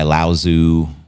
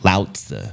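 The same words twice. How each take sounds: First: The name is said with an English pronunciation. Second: The name is said with a Chinese pronunciation.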